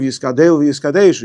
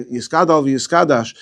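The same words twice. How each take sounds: First: "Yiskadel v'Yiskadesh" said with an e in the last syllable of each word, kaDEL and kaDESH; Yiskadel with the e vowel. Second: "Yiskadal v'Yiskadash" said with an a in the last syllable of each word, kaDAL and kaDASH; Yiskadal with the a vowel. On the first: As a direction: say "Yiskadel v'Yiskadesh" with e sounds, the other reading. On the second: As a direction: say "Yiskadal v'Yiskadash" with open a sounds, as the teacher demands. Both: Retold or imitated. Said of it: "instead of".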